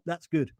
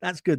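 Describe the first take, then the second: First: Dry, sarcastic "good"; a low, dry, sarcastic "good". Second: Dry, sarcastic repeat; a second dry, sarcastic "good". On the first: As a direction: say "That's good." as a sarcastic jab. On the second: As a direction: say "That's good." again with heavy irony. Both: Shown as a demonstration. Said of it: "That's sarcasm".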